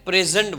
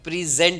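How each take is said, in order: First: The stress is on the first syllable. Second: The stress is on the second syllable. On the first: It is a noun meaning gift, here, or now. "ત્યારે એને present બોલાય છે" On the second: It is a verb. "ક્રિયાપદ તરીકે present બોલાય, તો એમાં ઝેન્ટ ઉપર ભાર મૂકવાનો છે"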